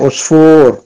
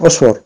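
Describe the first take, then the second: First: The vowel is drawn out long. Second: The vowel is said short. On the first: "on a un waw, donc on doit tirer osfour" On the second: "Si on n'aurait pas eu le waw"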